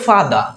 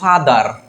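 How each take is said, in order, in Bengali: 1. শেষের r ধ্বনিটি উচ্চারণ করা হয় না। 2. শেষের r ধ্বনিটি উচ্চারণ করা হয়। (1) "ব্রিটিশরা বলে ফাদা" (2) "আমরা যেমন বলি ফাদার"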